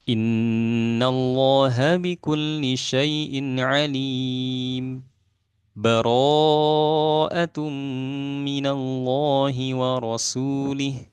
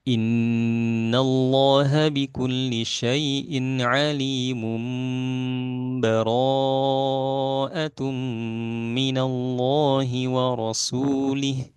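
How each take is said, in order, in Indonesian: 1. Ada jeda singkat tanpa tarikan napas yang memisahkan kedua frasa. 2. Kedua frasa itu tersambung tanpa jeda sama sekali. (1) "berhenti sejenak di sini" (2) "kita praktekkan yang idraj dulu"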